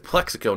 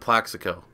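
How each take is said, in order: First: The first vowel sounds like 'eh' in 'bed'. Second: The first vowel sounds like 'a' in 'cat'. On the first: The speaker calls it right. "I'm pretty sure it's Plexico" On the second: The speaker calls it wrong. "not Plaxico"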